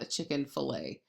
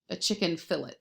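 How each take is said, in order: First: Fillet is pronounced the French way. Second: Fillet is pronounced the English way. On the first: The speaker calls it wrong. "not a chicken fillet" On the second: The speaker calls it right. "for the English, it's a fillet"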